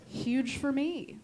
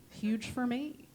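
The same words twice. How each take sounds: The two takes are said the same way.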